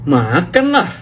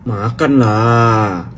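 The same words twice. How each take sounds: First: It sounds certain, stating something will definitely happen. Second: It sounds coaxing, persuading someone to eat.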